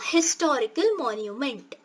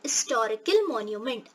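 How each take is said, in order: First: The first syllable of historical is stressed. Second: The first syllable of historical is unstressed. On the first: The article before it is a. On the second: The article before it is an.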